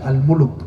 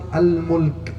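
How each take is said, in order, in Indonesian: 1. Kata ini berakhir dengan dua suku kata, 'muluk'. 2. Kata ini berakhir dengan satu suku kata, 'mulk'. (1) "Tidak ada bacaan Al-Muluk" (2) "padahal bacaannya surat Al-Mulk"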